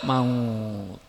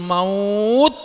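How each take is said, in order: First: The word ends with a t sound. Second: The word ends with a d sound.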